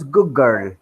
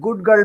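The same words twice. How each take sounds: First: The d of good sounds like g. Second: The d of good is clearly pronounced.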